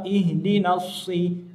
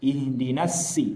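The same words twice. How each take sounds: First: The s is heavy, with a thick jaw. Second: The s is light, with a thin jaw. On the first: The speaker calls it right. "di situ adalah yang pertama huruf shad" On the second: The speaker calls it wrong. "ketika kita ucapkan huruf shad di rahang tipis ... maka itu sudah salah"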